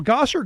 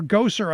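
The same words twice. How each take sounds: First: Gosar said the first, uncorrected way; first attempt at the surname Gosar, before correcting it; first-guess pronunciation. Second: Gosar with a long O, like "go"; corrected pronunciation. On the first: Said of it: "I guess is how they pronounce it". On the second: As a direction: correct yourself to Gosar, opening on "go". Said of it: "is how they pronounce it". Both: Shown as a demonstration.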